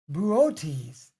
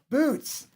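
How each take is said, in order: First: The name does not sound like 'boots'. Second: The name sounds just like 'boots'. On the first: The speaker calls it right. "this is pronounced Bootes" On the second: The speaker calls it wrong. "not boots"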